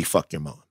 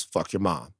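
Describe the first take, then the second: First: Low soft delivery of the quote; quoted low and soft. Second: Quoted low and soft. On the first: Host clarifying what he told a listener, low and soft. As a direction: say it quietly, almost aside. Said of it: "I said it could be". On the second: Host quoting a listener's line, low and soft. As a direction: drop low and quiet on the quote. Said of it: "I didn't say that". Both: Shown as a demonstration.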